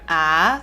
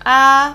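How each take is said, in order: First: It is said in second tone, rising. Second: It is said in Mandarin first tone. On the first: "second tone, it goes up" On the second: "which is first tone"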